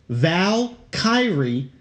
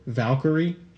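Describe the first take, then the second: First: The word is split with a gap after Val. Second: The word is said smoothly without a break. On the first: The speaker calls it wrong. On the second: The speaker calls it right.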